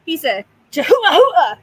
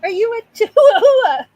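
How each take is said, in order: First: Loud and high, almost shouted; big playful reveal to the dog; excited announcement. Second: High, loud question breaking into laughter; giddy laughing question to the pet; laughing squeal. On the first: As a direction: announce it with a burst of glee. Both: Real, not acted.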